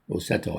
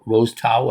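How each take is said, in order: First: The name is said as one joined word. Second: The name is said as two separate words. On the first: The speaker calls it right. "So it's actually Rosetto" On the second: The speaker calls it wrong. "I thought it was Rose and Tao"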